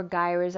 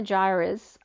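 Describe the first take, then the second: First: "gyres" begun with a hard g; alternative pronunciation. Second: "gyres" begun with a j sound; soft-g pronunciation. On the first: Reader unsure of an ocean term, offering "gyres" with a hard g. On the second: Reader unsure of an ocean term, trying "gyres" with a soft g. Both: Shown as a demonstration. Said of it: "not sure how they pronounce it".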